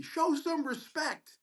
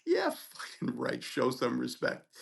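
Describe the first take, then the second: First: High, drawn-out imitated yell, not full volume; mock scream. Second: Scornful retort. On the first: Other resident yelling down the hallway at the student, mock scream. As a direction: call it down a hallway in a raised pitch. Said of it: "screams down the hallway". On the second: Retold or imitated. Student answering the resident who screamed at him, scornful retort. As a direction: throw the words back slowly, unimpressed.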